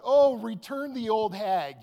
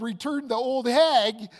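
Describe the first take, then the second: First: Loud, slow mock yell at the box. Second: Loud, slow, stunned blurt; shocked yell. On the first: Man yelling at the prize box, loud and slow. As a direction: call it out to the crowd. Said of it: "I yelled out". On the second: Retold or imitated. Groom shocked to find his fiancée, loud stunned yell. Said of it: "so flabbergasted and so shocked that I said".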